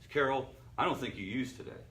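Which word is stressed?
none. The word today is not stressed.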